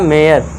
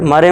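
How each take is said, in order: First: It is said with an 'ay' glide, 'may-ar'. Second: It is said as two syllables, 'maa-re'. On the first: The speaker calls it right. "इसे पढ़ना है मेयर" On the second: The speaker calls it wrong. "मारे मत पढ़ देना"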